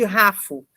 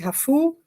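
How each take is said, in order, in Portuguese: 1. A sílaba tônica é a primeira. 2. A sílaba tônica é a última. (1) "eu poderia ler" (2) "os nomes sempre vão ser mais fortes na última sílaba"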